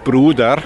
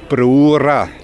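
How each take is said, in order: First: It is said in Standard German pronunciation. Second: It is said in Neudorf dialect, d becoming r. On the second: "im Neudorferischen Brura. Das D wird zu R"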